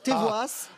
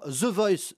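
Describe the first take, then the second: First: It is said with French-style sounds. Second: It is said with English-style sounds. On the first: The speaker calls it right. "Il faut dire comme cette candidate" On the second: The speaker calls it wrong. "je prononce mal"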